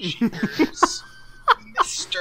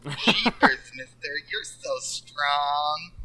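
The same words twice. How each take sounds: First: Put-on higher, innocent kid voice; bright gee-whiz kid, pitched up; wholesome 1950s kid. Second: Put-on slow, innocent kid voice; gee-whiz little kid; wholesome 1950s kid. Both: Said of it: "I was going for innocent".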